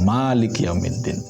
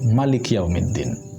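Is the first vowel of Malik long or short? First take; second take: long; short. First: The first vowel of Malik is long. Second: The first vowel of Malik is short. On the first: This is the common reading used in Indonesia. The speaker calls it wrong. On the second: This is the reading used by people of Medina. The speaker calls it right. "dengan dipendekkan maknya"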